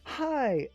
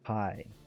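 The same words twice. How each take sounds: First: It sounds thrilled and full of excitement. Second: It sounds bitter and full of resentment. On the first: It has been so long since we met. "as in, "Oh my god, I haven't seen you in months. How are you?" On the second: Seeing you has ruined my day. "I hate the fact that I got to see you today. My day is ruined"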